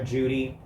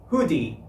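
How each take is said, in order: First: The name begins with a J sound. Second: The name begins with an H sound. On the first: "we'd just call her Judy" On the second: "they call her name in Spanish, it would be Hoodie"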